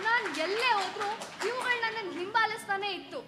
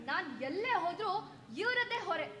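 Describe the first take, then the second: First: A loud, pained protest; wife shouts that the watchers follow her everywhere; anguished outburst. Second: Said in the usual way. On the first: Acted. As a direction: cry out loud, pressing hard on ಎಲ್ಲೇ. Wife bursts out in the quarrel.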